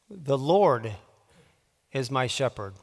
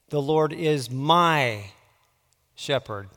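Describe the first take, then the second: First: The emphasis falls on the word 'Lord'. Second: The emphasis falls on the word 'my'. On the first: "putting the emphasis on a different word each time" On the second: "putting the emphasis on a different word each time"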